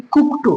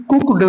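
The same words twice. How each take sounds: First: कुक्ड ending in a T sound; correct pronunciation. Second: कुक्ड with a voiced D ending; wrong pronunciation. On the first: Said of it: "बल्कि". (सही उच्चारण, कुक्ड के अंत में 'ट') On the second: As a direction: end कुक्ड on a plain D. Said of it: "नहीं बोलेंगे". (गलत उच्चारण, कुक्ड के अंत में 'ड') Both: Shown as a demonstration.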